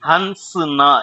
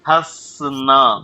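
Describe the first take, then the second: First: An n sound is pronounced before the s. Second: No n sound is pronounced before the s. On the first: The speaker calls it wrong. "இன்ன போட்டு அழுத்தணும் அப்படின்னா உச்சரிப்பு தப்பா தான் போகுங்க" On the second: The speaker calls it right. "என்னுடைய உச்சரிப்புல நடுவில் அந்த என் சவுண்டே வந்திருக்காது"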